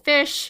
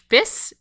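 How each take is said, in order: First: The word ends with an sh sound. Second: The word ends with an s sound.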